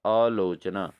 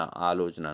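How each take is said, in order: First: आलोचना said slowly as the wrong version; wrong form, slow. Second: आलोचना opened with a long, low "aa"; long initial aa. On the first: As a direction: contrast it slowly, marking it wrong. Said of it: "not आलोचना". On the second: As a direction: lean into the opening vowel of आलोचना. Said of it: "मतलब आ पहले होना चाहिए". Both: Shown as a demonstration.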